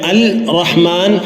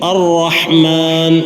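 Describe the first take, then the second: First: The L is sounded separately before the R. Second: The L merges into a doubled R sound. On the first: The speaker calls it wrong. "അവിടെ അൽ റഹ്മാൻ എന്ന് ഓതുകയില്ല" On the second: The speaker calls it right. "ലാം ശേഷമുള്ള അക്ഷരത്തിൽ ലയിച്ച് കനപ്പിച്ച് ഉച്ചരിക്കുന്നു"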